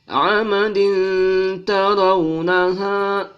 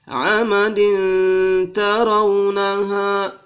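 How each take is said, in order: The two takes are said the same way.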